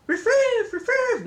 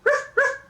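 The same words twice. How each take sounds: First: High, silly "riff-riff" barks; mock Mexican dog bark. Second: High, loud imitated barks; ordinary dog bark. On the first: Grandma joking how Mexican dogs don't go, mock barking. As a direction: yip an exaggerated foreign-sounding bark. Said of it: "dogs in Mexico don't go". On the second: Grandma showing how all dogs go, plain barking. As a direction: bark like any dog anywhere. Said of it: "just like all the other dogs".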